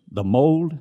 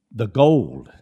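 First: Mold lifted higher and louder; stress on mold. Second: Gold punched louder; gold said loud with a falling tune; stress on gold. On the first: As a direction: raise the pitch on mold. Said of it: "the gold is His". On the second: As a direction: hit gold hard. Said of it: "The mold is theirs". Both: Shown as a demonstration.

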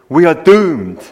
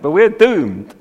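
First: Mock gloomy Scottish accent, loud; doom-laden Scots wail of the catchphrase. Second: Said in the usual way. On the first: Preacher quoting a gloomy Scottish soldier, Scottish accent. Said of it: "punctuate the dialogue with this catchphrase". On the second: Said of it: "I wish I could say it in a Scottish accent".

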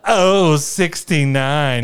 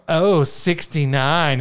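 First: Very slow, drawn-out, high and loud call; milk every syllable like a bingo caller. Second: Slow drawn-out caller voice, higher and louder; bingo caller. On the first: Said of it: "just, like, really emphasize that". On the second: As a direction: stretch out the number like a bingo caller. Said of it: "so the bingo caller". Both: Retold or imitated.

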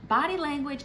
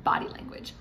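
First: "Body language" said high and stressed, BODY hit hard; emphasis. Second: Whispered. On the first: Host stressing "Body language" to wives, high emphatic. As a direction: punch "Body language" upward with weight. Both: Shown as a demonstration. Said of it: "I also want you to remember".

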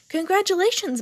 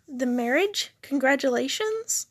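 First: High, loud and beaming; excited, big-smile exclamation; delighted congratulation. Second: Tentative questions, rising at the end; mildly baffled, questioning tune; puzzled. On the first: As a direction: burst in with great cheer. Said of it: "came barging in with a huge smile". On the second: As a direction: prompt them, unsure they understood. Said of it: "Dane scrunched up his eyebrows". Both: A narrator's reading.

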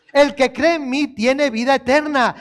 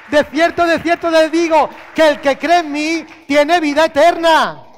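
First: Said in the usual way. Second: The verse cried out higher and louder; loud proclaimed verse. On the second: Acted. Preacher proclaims Jesus's words to the church, loud and high. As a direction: proclaim it to the whole hall.

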